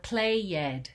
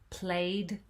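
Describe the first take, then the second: First: The ending is said as an extra syllable. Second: The ending is only a final d sound. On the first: The speaker calls it wrong. "we don't say" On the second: The speaker calls it right. "we're not going to add a syllable to those words"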